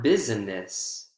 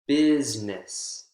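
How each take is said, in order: First: The word is said with three syllables. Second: The word is said with two syllables. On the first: The speaker calls it wrong. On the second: The speaker calls it right. "Business has two syllables in the spoken form"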